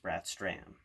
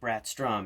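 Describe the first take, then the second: First: The last syllable has an 'ah' vowel. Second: The last syllable has an 'oh' vowel. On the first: The speaker calls it right. "makes the O pronounced like an A" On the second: The speaker calls it wrong. "instead of"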